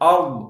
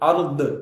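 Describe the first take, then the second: First: The final consonant ends without an echo. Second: The final consonant bounces with an echo. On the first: The speaker calls it right. "அப்படினு சொல்லி தான் வரணுமே" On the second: The speaker calls it wrong. "ضادயை கல்கலா செய்வாங்க. தப்பு"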